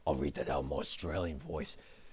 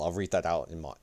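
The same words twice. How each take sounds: First: Lower, put-on Australian accent. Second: Said in the usual way. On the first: Streamer announcing his reading to viewers, put-on Australian accent. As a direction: slip into a hammed-up Australian accent.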